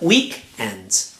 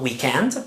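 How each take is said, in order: First: The stress is on the first syllable. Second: The stress is on the second syllable. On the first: The speaker calls it right. "The stress is on the first syllable" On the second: The speaker calls it wrong. "Not weekend"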